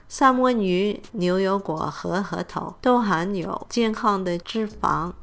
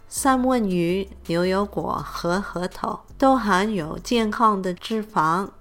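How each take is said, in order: No difference in how they are said.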